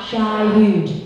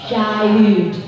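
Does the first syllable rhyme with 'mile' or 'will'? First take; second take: mile; mile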